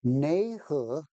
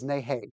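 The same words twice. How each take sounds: First: "Neihe" as "nay-huh", drawn out; Suzhou-style greeting. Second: "Neihei" as "nay-hay", both syllables rhyming; Changzhou-style greeting. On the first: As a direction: say "Neihe" slowly, ending in "huh". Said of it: "Suzhou was Neihe". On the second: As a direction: say "Neihei" slowly, ending in "hay". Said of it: "Changzhou was Neihei". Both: Shown as a demonstration.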